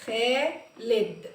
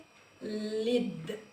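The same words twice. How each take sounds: First: خالد again, slowly and falling; slow repeat. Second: خالد drawn out slowly, falling; very slow sounding out. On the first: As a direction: say خالد slowly once more. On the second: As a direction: stretch خالد syllable by syllable. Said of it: "sounding out the name". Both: Shown as a demonstration.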